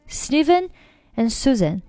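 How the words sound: 'And' is weak; the two names carry the stress. The speaker calls it right. "只要呢你这个音啊它的这个强弱度不要高过这两个人名就可以了"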